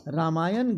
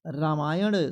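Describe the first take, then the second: First: रामायण ending in a plain n; tongue-tip n to close रामायण; रामायण as "ramayan"; wrong pronunciation. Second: रामायण ending in retroflex ṇ, near "d"; slow रामायण with flapped final sound; correct pronunciation. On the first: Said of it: "रामायण गलत है". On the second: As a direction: curl the tongue back to close रामायण. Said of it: "रामायण सही है". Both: Shown as a demonstration.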